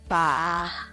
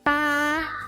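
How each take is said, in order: First: The pitch dips low, then rises. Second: The pitch stays high and level.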